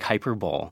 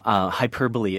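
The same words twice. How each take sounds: First: The final e is silent, as spelled. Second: The final e is pronounced as a syllable.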